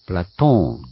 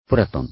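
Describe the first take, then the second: First: The middle vowel is long. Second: The middle vowel is short. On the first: The speaker calls it right. "古代の言語って大概この超長い音ですね" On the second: The speaker calls it wrong. "プラトンではなく"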